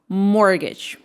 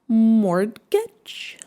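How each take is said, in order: First: The t sound in the middle is silent. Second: The t sound in the middle is pronounced. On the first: The speaker calls it right. "T silent" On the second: The speaker calls it wrong.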